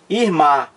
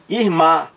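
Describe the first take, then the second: No difference in how they are said.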